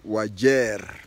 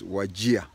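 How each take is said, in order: First: The name ends with a 'jeer' sound. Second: The name ends with a 'jia' sound. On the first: This is how the local natives say it. "the natives call it Wajer, J E E R" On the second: This is how people from down Kenya say it. "we people from down Kenya pronounce it as Wajir, J I A"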